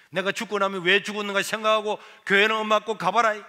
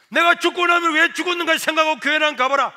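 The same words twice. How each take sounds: First: Repeated vow. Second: Higher, louder declaration; loud vow. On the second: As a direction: proclaim it with full force. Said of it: "선포를 했어요". (큰 소리로 선포) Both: Retold or imitated.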